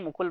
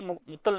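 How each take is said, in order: First: The middle consonant is a k sound. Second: The middle consonant is a t sound. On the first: This is the form after training. The speaker calls it right. "मुकुल बोलना चाहिए" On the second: This is how a small child says it. The speaker calls it wrong. "मैं बचपन में मुतुल कानिटकर बोलता था"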